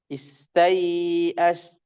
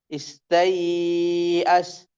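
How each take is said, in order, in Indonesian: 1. Vokal sebelum hamzah dibaca panjang sedang. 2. Vokal sebelum hamzah dibaca panjang sekali. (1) "tawassud empat harokat" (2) "tul enam harokat"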